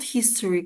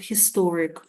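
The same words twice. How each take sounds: First: The stress is on the first syllable. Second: The stress is on the second syllable. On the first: The speaker calls it wrong. "not historic" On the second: The speaker calls it right. "Second syllable is stressed"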